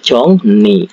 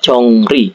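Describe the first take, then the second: First: The consonant after NG sounds like N. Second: The consonant after NG sounds like L/R. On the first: "jadi dibaca Jongni" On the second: "ini huruf Eng bertemu dengan huruf L"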